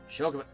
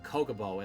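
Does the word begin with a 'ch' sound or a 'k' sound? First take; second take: ch sound; k sound. First: The word begins with a 'ch' sound. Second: The word begins with a 'k' sound. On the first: The speaker calls it right. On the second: The speaker calls it wrong.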